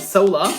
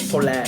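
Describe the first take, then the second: First: The name is pronounced the English way. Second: The name is pronounced the German way.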